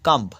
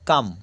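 First: The word ends with a b sound. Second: The word ends without a b sound. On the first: The speaker calls it wrong. "Not কাম্ব" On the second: The speaker calls it right. "কোথাও কোথাও বি silent থাকে"

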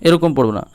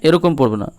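The two takes are said the same way.

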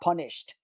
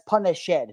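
First: The ending is a plain t sound, punisht. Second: The ending is a separate syllable, punish-ed. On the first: The speaker calls it wrong. "not punished" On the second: The speaker calls it right. "that's punished"

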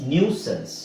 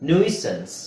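Both takes have the same delivery.

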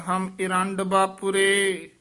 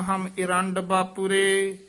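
Both takes have the same delivery.

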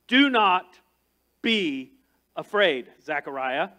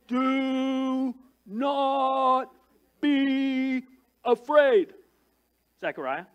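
First: It is said in a plain reading voice. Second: It is said in a put-on hillbilly accent.

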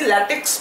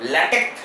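First: The word ends with a ks sound. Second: The word ends with a plain k sound. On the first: The speaker calls it wrong. "পড়ার সময় যদি ল্যাটেক্স পড়েছো তাহলে আমি কিন্তু তোমার অবস্থা খারাপ করে দেবো" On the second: The speaker calls it right. "তুমি যদি কে পড়ো তাহলে আরো বেটার"

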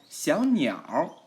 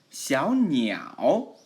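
First: The word ends with an r-colored sound. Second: The word ends without an r-colored sound. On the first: "R화 붙여서" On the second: "小鸟 발음해도 되지만"

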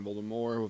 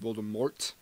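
First: The final T is soft, barely pronounced. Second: The final T is pronounced clearly and hard. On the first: "saying Voldemort with a soft T" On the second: "Some people put a hard T at the end"

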